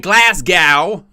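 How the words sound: It is said in an American accent.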